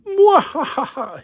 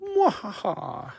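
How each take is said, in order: First: Slow high evil cackle; mad scientist laugh. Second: Mad scientist laugh. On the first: Evil laugh holding the figure. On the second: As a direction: redo the villain cackle for camera. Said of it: "how about I do that on the camera". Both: Pretend.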